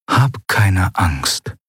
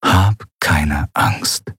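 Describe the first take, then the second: First: Very slow, soothing words; a soothing inner voice, very slow. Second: Very slow, lower, softer echo; softer inner echo. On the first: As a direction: comfort her gently from within. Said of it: "eine Stimme tief in ihrem Inneren". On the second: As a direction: let it fade like a memory. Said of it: "Vielleicht ihre eigene". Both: A narrator's reading.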